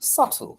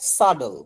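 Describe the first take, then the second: First: The middle consonant is a clear t sound. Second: The middle consonant sounds like a soft d. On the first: "ব্রিটিশে সাটল" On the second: "আমেরিকানে পি হয়ে যায় ডি"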